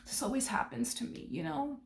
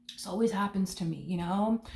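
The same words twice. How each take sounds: First: Higher and softer, a sulky whine; softer, higher mock whimper; mock self-pity. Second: Said in the usual way. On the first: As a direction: whimper it like the put-upon victim. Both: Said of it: "This person might go as far as to s".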